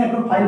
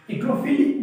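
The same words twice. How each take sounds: First: एग्रोफाइल said with a long ai, phile; long ai ending. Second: एग्रोफिल said with a short i, phil; short i ending. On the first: Teacher giving the other reading एग्रोफाइल, long phile. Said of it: "एग्रोफिल बोले". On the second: Teacher offering एग्रोफिल as one reading, short phil. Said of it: "एग्रोफाइल बोले". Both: Shown as a demonstration.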